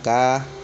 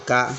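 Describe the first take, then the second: First: The vowel is held long. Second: The vowel is cut short. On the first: "dibaca panjang" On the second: "maka dibaca pendek juga"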